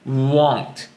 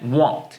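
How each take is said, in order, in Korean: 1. 이 단어는 천천히, 길게 늘여서 발음해요. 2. 이 단어는 짧고 빠르게 발음해요. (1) "천천히 발음하면 won't가 되지만" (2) "짧게 빠르게 발음하면"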